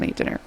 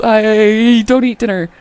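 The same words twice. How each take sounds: First: Quiet whispered repeat of the excuse. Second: Louder, slow panicked blurt, almost a cry; panicky blurt. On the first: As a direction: breathe it out like a sly aside. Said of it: "And so now she's like". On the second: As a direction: blurt it out in a mock panic, then flee. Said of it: "she totally panics". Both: Retold or imitated.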